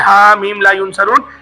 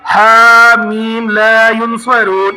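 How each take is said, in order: First: The phrase is said quickly without lengthening. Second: The phrase is said slowly with stretched vowels. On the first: The speaker calls it wrong. "तेज तेज नहीं पढ़िएगा, जैसे ... ऐसे नहीं पढ़िएगा" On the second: The speaker calls it right. "इस तरीके से ही पढ़िएगा"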